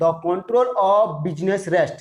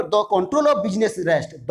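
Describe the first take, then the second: First: Very slow, word by word; drawn-out, separated words; slower dictation. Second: Slow, measured reading; unhurried dictation pace. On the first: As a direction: stretch each word out for note-takers. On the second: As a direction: read slowly for those writing. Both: Shown as a demonstration. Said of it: "जो भी लिख रहा है बता रहा हूँ".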